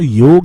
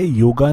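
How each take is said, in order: First: The word ends on a consonant sound. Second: The word ends on an added vowel sound. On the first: This is the original native form. The speaker calls it right. "योग है" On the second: This is the form the English introduced. The speaker calls it wrong. "योगा नहीं"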